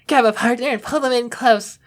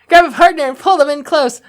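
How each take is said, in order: First: It is spoken in a soft, dreamy put-on voice. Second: It is read in a plain narrating voice.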